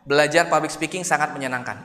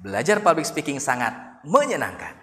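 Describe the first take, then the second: First: It is said flat, with no word stressed. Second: The stress falls on the word menyenangkan. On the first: "itu flat" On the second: "dikata ujungnya, menyenangkan"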